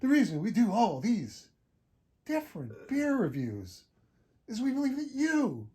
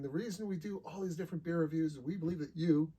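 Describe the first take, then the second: First: It is read in a dramatic, halting put-on voice. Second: It is read in the speaker's normal voice.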